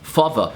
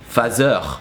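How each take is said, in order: First: Said in an English accent with an English ending. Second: Said in a French accent with a French ending. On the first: "the er at the end of a word" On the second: "would be changed by er"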